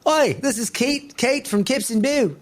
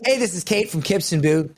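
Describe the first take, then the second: First: A hammed-up try at an Australian accent that doesn't land; failed Australian accent. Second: Said in the usual way. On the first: Shown as a demonstration. Pitching the brand video to Kate in a failed Australian accent. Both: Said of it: "I can't do an Australian accent".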